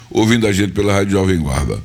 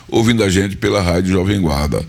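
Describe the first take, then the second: No difference in how they are said.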